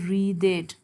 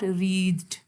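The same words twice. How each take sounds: First: The ending -ed is sounded as its own syllable. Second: The ending -ed is blended into one syllable. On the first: The speaker calls it right. "we have to pronounce it as wreathed" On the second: The speaker calls it wrong. "not wreathed"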